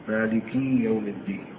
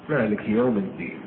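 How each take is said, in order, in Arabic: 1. الحركة بعد malik ممدودة مثل 'ee'. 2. الحركة بعد malik كسرة قصيرة خفيفة 'i'. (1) "غلط هناك يا" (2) "فلا تظهر كأنها يا كسر فتخفف"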